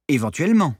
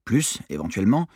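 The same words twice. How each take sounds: First: Dry mocking repeat of the word Éventuellement; a touch of sarcasm; ironic echo. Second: Said in the usual way. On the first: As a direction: throw Éventuellement back at him with mild irony. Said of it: "ironisa Clara".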